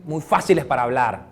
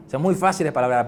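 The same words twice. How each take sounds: First: Said in the usual way. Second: Laughing. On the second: Real, not acted. Repeats line with a laugh.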